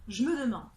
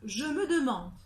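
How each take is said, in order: First: The e of je is dropped. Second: Every e sound is pronounced.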